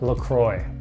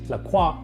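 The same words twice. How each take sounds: First: The name is pronounced the American English way. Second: The name is pronounced the French way. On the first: The speaker calls it wrong. "but LaCroix" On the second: The speaker calls it right. "Not like it's properly pronounced in France"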